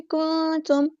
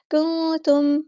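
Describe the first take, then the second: First: को तुम with the kaf vowel kept short; correct reading. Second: को तुम with the kaf vowel stretched into waw; the mistaken को तुम, long oo; wrong reading. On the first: Teacher showing the right way. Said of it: "को तुम नहीं बनाना". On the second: Teacher showing the error to avoid. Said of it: "इस तरह ऐसे नहीं करना". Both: Shown as a demonstration.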